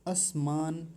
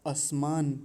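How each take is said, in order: No difference in how they are said.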